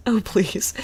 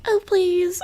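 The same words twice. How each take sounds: First: Whispered, breathy mock "Oh, please."; mock intern. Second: "Oh, please," squeaked much higher; mock intern. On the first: Quoting the intern on TV, whispered sneer. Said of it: "First off, he says". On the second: Retelling the intern's line, high mocking squeal. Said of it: "or however she says".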